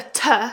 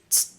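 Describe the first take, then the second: First: The letter is said by its alphabet name. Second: The letter is said as its bare sound. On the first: "So this is a T" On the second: "the sound it makes is t"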